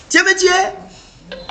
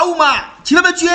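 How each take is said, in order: First: High, slow, stretched out complaint; slow high-pitched replay of the protest; slow drawn-out repeat. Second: High, loud outraged shout; high yell of protest after being scalded; acted pained shout. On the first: Acted. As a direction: drag each word out in reproach. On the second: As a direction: shout at whoever hurt you. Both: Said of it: "Tu cries".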